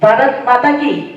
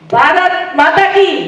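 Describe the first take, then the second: First: It is said softly and quietly. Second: It is said somewhat louder. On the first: "પહેલી વખત હું ધીમેથી બોલી હતી" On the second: "બીજી વખત હું એનાથી થોડું મોટેથી બોલી"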